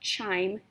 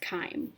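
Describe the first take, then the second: First: The word begins with a 'ch' sound. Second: The word begins with a 'k' sound. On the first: The speaker calls it wrong. "not chime" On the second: The speaker calls it right. "That's how you pronounce this word"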